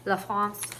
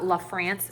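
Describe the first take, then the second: First: The name is said without an American accent. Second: The name is said with an American accent.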